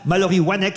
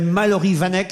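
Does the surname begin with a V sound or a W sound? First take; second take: W sound; V sound. First: The surname begins with a W sound. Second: The surname begins with a V sound. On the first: The speaker calls it right. "il fallait prononcer wa et non pas va" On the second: The speaker calls it wrong. "je ne sais pas si j'ai écorché son nom ou pas"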